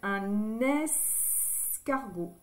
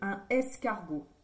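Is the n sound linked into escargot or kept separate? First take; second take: linked; separate. First: The n sound links into the next word. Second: The two words are said without linking. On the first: The speaker calls it right. "C'est plus joli de dire un escargot" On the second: The speaker calls it wrong. "que un escargot"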